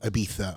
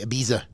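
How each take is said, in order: First: It is pronounced the British way. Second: It is pronounced the American way.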